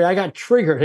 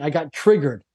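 First: Triggered restated with more weight; emphatic repeat. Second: Said in the usual way. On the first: Real, not acted. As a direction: lean harder on triggered the second time.

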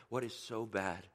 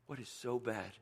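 Both takes have the same delivery.

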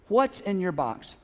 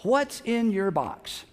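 First: Slow asking, repeated. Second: Slow asking. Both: Shown as a demonstration. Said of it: "I want you to ask them".

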